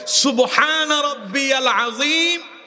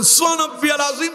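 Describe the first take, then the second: First: It is recited slowly and carefully. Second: It is recited fast and hurriedly.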